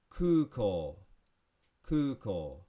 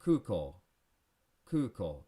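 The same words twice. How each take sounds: First: Kuko with both u and o stretched long; Kuko, ku and ko both held long; exaggerated long vowels. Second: Kuko said quick and natural; everyday-speed Kuko; normal speed. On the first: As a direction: stretch Kuko's vowels on purpose. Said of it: "I'm exaggerating a little bit". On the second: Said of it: "At normal speed". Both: Shown as a demonstration.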